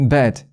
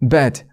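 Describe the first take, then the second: The two takes are said the same way.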